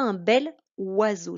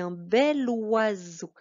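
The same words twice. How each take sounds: First: The words are said separately, without linking. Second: The words are linked together into one flow. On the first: The speaker calls it wrong. "Je dis pas" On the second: The speaker calls it right. "J'accroche ces deux mots ensemble"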